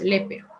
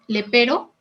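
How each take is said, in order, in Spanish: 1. La acento cae en la primera sílaba. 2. La acento cae en la segunda sílaba. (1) "se volvió esdrújula" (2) "así, palabra grave"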